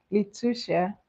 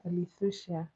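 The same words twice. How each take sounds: First: Litusha with a plain T in the middle, drawn out; Litusha, slow, as li-TOO-sha; trying a pronunciation. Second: Litusha with a soft TH in place of T; Litusha, middle T softened to TH; alternative pronunciation. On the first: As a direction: say Litusha slowly, testing the T version. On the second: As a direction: offer Litusha as li-THOO-sha. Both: Shown as a demonstration. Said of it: "Which one?".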